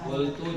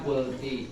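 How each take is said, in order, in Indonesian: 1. Kata itu berakhir dengan vokal 'u'. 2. Kata itu berakhir dengan vokal 'i'. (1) "Seharusnya fathah dibaca kasroh" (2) "mengubah harokat dengan harokat"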